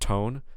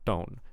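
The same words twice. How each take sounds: First: The t has a puff of air. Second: The t has no puff of air. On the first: The speaker calls it right. "make sure there's a puff of air coming out" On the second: The speaker calls it wrong. "I think I'm hearing a unaspirated T"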